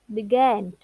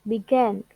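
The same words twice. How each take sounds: Both takes have the same delivery.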